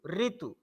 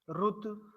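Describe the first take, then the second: First: The first syllable is ri, Hindi style. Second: The first syllable is ru, Gujarati-Marathi style.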